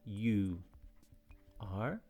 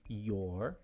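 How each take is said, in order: First: Both words are said fully and separately. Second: The two words are run together into one syllable. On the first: The speaker calls it wrong. "Essa aqui é a forma não contraída, mas como eu disse na última aula, nós não falamos assim" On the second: The speaker calls it right. "A gente contrai. Então, geralmente, você vai ouvir isso daqui"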